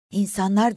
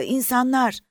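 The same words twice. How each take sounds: First: A hushed gasp of disbelief, a little higher; half-whispered "İnsanlar!", rising at the end; breathless whisper. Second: "İnsanlar!" much higher and louder, falling; calling out in sudden joy; excited cry. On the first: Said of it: "diye fısıldayarak ayağa kalktı". (inanamayarak fısıltıyla) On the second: Sees people, cries out again. (sevinçle haykırarak) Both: A narrator's reading.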